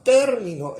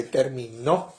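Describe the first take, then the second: First: Término said TÉR-mi-no, stress at the start; stress on the first syllable. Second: Terminó said ter-mi-NÓ, stress on the last syllable; stress on the final O. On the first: Preacher giving the congregation the right stress, TÉR-mi-no. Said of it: "sino como un término". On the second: Preacher showing the congregation the wrong stress, ter-mi-NÓ. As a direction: land hard on the O of terminó. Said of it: "pero no con el acento en la O". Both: Shown as a demonstration.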